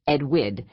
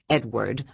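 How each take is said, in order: First: The name is said in a Brooklyn accent. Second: The name is said without a Brooklyn accent. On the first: "Alice had a thick Brooklyn accent" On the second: "not Edward"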